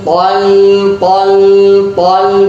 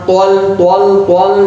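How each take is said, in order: First: The syllable is light with an open vowel. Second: The syllable is heavy with a rounded vowel. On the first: The speaker calls it right. "Huruf lam tipis, kita harus baca tipis" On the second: The speaker calls it wrong. "jangan tol tol tol"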